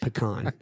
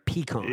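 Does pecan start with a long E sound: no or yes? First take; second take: no; yes. First: The first vowel is not a long E sound. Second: The first vowel is a long E sound. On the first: This is the speaker's own way of saying it. "That's how I say it. Like [name]" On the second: Someone else says it this way. "So you throw a long E in there"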